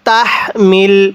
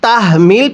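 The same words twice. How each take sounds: First: The h sound is made with breath released. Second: The h sound is made without released breath. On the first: The speaker calls it right. "এই হাটি উচ্চারণের সময় মুখের মধ্যে একটু বাতাস বের করতে হবে" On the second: The speaker calls it wrong. "যদি তাহমিল পড়ি তাহলে পড়াটা সহি শুদ্ধ হবে না"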